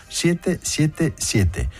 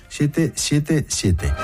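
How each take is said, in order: The two takes are said the same way.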